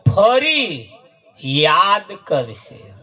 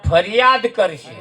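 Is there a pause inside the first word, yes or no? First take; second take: yes; no. First: There is a break between fari and yaad. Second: Fariyaad is said quickly without a break.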